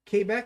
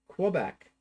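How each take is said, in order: First: It is said with a French-Canadian pronunciation. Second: It is said with an outsider's English pronunciation. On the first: This is how locals say it. The speaker calls it right. "how it is said by the French Canadians" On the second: This is how people elsewhere say it. The speaker calls it wrong. "maybe the way you'll hear it pronounced outside of uh, Ontario and Quebec"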